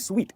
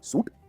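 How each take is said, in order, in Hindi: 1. यह शब्द 'sweet' जैसा सुनाई देता है। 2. यह शब्द 'soot' जैसा सुनाई देता है। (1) "इसे कहते हैं स्वीट" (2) "क्योंकि स्पेलिंग वैसी है"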